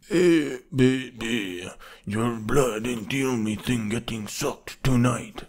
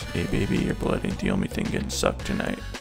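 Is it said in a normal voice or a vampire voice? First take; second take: vampire voice; normal voice. First: It is said in a classic Dracula-like vampire voice. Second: It is said in his normal voice.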